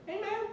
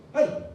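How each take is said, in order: First: Much higher, sing-song friendly greeting; light and chummy, no threat at all; friendly hey. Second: Loud, high, confrontational hey; hostile call. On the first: Former rival greets him, high and friendly. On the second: Rival calls him out, loud and hostile. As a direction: bark it like you want a fight. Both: Retold or imitated.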